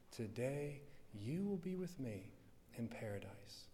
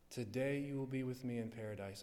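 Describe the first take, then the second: First: Tender hush. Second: Said in the usual way. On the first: Acted. Christ speaks to the thief.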